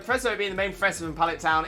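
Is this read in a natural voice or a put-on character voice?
natural. It is read in the speaker's natural voice.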